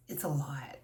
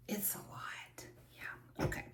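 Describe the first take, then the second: First: Said in the usual way. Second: Breathy whisper to herself. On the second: Real, not acted. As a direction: let it fade to a whisper. Repeats herself, trailing off.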